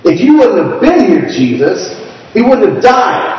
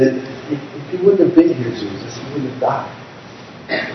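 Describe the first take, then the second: First: Angry. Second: Softer and slow, grieving; sad. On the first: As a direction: throw the blame at him. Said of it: "or they could have said it angrily". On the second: Sister grieving to Jesus over her dead brother, soft and slow. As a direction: let it fade out in grief. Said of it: "they could have said it sadly". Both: Shown as a demonstration.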